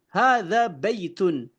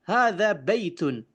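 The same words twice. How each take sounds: Both takes have the same delivery.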